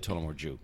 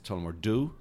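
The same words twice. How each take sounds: First: It is said in an Irish accent. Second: It is said in an American accent.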